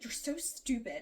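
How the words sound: It is said harshly, lashing out.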